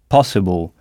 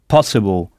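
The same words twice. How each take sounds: The two takes are said the same way.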